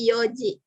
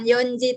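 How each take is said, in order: First: No n sound comes before the ji. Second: An n sound comes before the ji. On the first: The speaker calls it right. "tapi Yoji" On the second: The speaker calls it wrong. "bukan Yonji"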